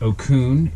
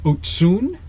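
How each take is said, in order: First: The middle consonant is a hard k sound. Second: The middle consonant is a ts sound. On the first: The speaker calls it wrong. "It's not Okun" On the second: The speaker calls it right. "it's Otsun"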